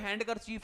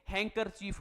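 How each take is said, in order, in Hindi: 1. 'han' के बाद d की आवाज़ सुनाई देती है। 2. 'han' के बाद d की कोई आवाज़ सुनाई नहीं देती। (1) "दिखने में तो हैंड कर चीफ है" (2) "ये डी है ना, ये साइलेंट है। हैंकर चीफ क्या बोलेंगे"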